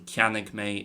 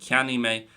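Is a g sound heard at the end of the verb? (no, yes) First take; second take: yes; no. First: A g sound ends the first word. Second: The first word ends without a g sound.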